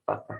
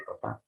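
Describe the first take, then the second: First: Papa with the stress on PA at the start; PApa, second syllable unstressed; stress on first syllable. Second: Papá with the stress on the final pá; paPÁ, first syllable unstressed; stress on last syllable. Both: Shown as a demonstration. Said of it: "función distintiva entre el acento".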